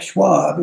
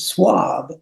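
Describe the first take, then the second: First: The name begins with an sh sound. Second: The name begins with a plain s sound. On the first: The speaker calls it wrong. "our name is not Schwab" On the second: The speaker calls it right. "it's Swab"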